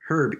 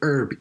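First: The word begins with an audible h sound. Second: The word begins with a vowel, h silent. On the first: "pronounce the H or not" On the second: "pronounce the H or not"

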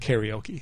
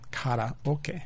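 First: It is said with an American English pronunciation. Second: It is said with a Japanese pronunciation. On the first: The speaker calls it wrong. "the American pronunciation of this word is kind of goofy" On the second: The speaker calls it right. "The correct pronunciation is... The Japanese pronunciation"

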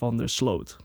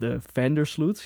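First: The stress falls on the last part, Sloot. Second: The stress falls on the first part, Vander. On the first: This is how the Dutch say the name. "here we would say Van der Sloot" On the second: This is how Americans say the name. "how Americans pronounce that, the emphasis on Vander"

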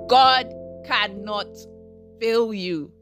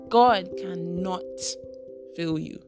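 First: It is said much more loudly. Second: It is said at a quieter volume.

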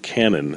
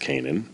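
First: The name sounds like the word cannon. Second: The name does not sound like cannon. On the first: This is how someone else said the name. The speaker calls it wrong. "who Jack pronounces as Stuart Cannon" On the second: This is believed to be the real pronunciation. The speaker calls it right. "I believe it's Kanan"

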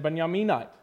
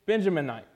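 First: The name is said with Hebrew pronunciation. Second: The name is said with English pronunciation.

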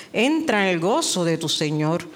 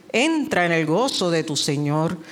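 No difference in how they are said.

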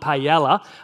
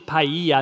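First: The L sound is clearly pronounced. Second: The L sound is silent. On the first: The speaker calls it wrong. "not paella" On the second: The speaker calls it right. "it is paella, The L's are silent"

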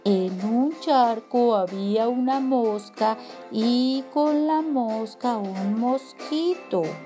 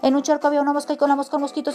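First: It is said at a slow pace. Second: It is said at a fast pace.

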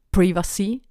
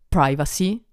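First: The word is said with a British accent. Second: The word is said with an American accent. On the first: "in British English" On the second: "o in americano"

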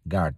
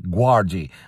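First: The word ends on a d sound. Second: An extra vowel follows the d sound. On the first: The speaker calls it right. "you don't pronounce the U basically. So it's guard" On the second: The speaker calls it wrong. "not guardi"

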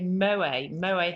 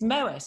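First: The final T sound is silent. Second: The final T sound is pronounced. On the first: The speaker calls it wrong. "I always say Moët Hennessy" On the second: The speaker calls it right. "it's got a T on the end. So it's Moët"

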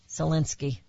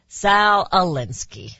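First: The two words are slid together into one. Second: The two words are kept clearly separate. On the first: The speaker calls it wrong. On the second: The speaker calls it right.

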